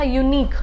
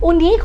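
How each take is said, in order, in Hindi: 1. यह शब्द 'you' ध्वनि से शुरू होता है। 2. यह शब्द 'oo' ध्वनि से शुरू होता है। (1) "य आता है साउंड के आ गया है आपका कंसोनेंट साउंड है" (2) "नहीं उनीक नहीं होता है"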